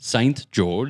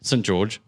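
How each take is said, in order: First: It is said in an American accent. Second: It is said in an Australian accent. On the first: "I'll do it the American way" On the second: "What's the Australian way?"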